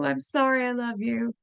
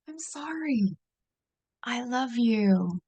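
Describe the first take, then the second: First: It runs together without a clear break. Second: There is a clear pause after sorry.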